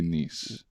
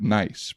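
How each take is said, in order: First: It sounds like niece, with a long ee. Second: It sounds like the English word nice. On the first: "in France we say Nice" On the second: "here you spell it nice"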